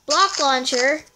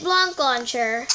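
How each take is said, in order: First: "Block" said cleanly, with no n; corrected pronunciation. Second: "Block" misspoken with an n before the k; slip of the tongue. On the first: Player fixing her slip, "Block" carefully corrected. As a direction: say "Block" firmly with a plain k ending. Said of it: "Block, not Blanc". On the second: Player naming the app she needed, tripping over "Block". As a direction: say "Block" nasalized, like "Blonk". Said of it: "not Blanc". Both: Real, not acted.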